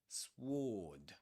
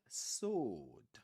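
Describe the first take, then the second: First: It is said with a w sound. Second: It is said with no w sound. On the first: The speaker calls it wrong. "We don't say sword" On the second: The speaker calls it right. "the W is silent. We don't pronounce it. We say sword"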